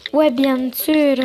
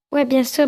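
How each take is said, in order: First: Slow, lingering agreement; slow drawn-out reply. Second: Said in the usual way. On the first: Acted. Agreeing to a walk with Coralie, slow and drawn-out. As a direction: stretch out each word. Same reply redone slowly.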